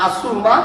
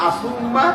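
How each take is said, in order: Both takes have the same delivery.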